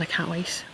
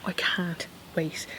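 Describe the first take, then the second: First: Said in the usual way. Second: "I can't wait" drawn out slowly, pause before "wait"; emphatic repeat. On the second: Real, not acted. Gardener longing for the weekend rain, slow emphatic "I can't wait". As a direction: stretch out "I can't wait" at half speed.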